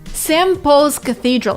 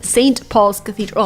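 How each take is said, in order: First: The t is dropped and n becomes m. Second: The t and n are both pronounced fully. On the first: The speaker calls it right. "T disappears because of elision, but then N is replaced with an M because of assimilation" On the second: The speaker calls it wrong. "It's not"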